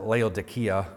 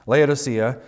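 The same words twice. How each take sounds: First: The name is said with Greek pronunciation. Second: The name is said with the usual English pronunciation. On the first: "In the Greek, you would pronounce it Laodicea" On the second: "we just get used to saying it differently"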